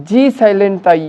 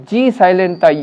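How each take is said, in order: Both takes have the same delivery.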